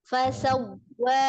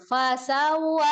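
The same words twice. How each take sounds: First: The pitch stays level on the first syllable. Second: The pitch jumps up on the first syllable. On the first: The speaker calls it right. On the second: The speaker calls it wrong.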